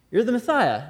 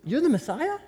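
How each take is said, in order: First: "You're the Messiah." said as a settled fact, falling at the end; falling statement. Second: "you're the Messiah?" rising high at the end, unsure and asking; rising question. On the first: Teacher restating the title as a fact, with a falling tune. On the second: John's followers question Jesus, with a high rising tune. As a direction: ask "you're the Messiah?" as a doubtful question that climbs up. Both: Retold or imitated.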